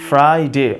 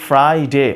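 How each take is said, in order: No difference in how they are said.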